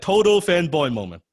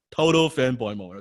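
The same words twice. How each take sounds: First: Higher and louder, punching Total; excited emphasis. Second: Said in the usual way. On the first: Real, not acted. Speaker relives meeting his hero, high excited emphasis. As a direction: hit "Total" hard with a high, loud "Total fanboy moment". Stresses fanboy moment.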